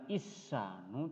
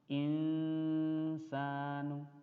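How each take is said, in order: First: The n sound is dropped completely. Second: The n sound is faint and nasalized. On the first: The speaker calls it wrong. "tidak hilang" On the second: The speaker calls it right. "tapi dibaca samar"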